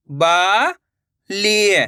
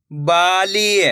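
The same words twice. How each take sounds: First: "Bali" split into two long syllables. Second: Said in the usual way. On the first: Shown as a demonstration. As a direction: draw out बा, pause, then ली in "Bali". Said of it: "एक एक अक्षर का उच्चारण". ("बाली" को तोड़कर, बा... ली) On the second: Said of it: "तो मिलके बन जाएगा".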